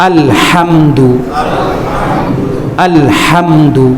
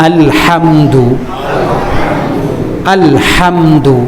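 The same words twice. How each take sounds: No difference in how they are said.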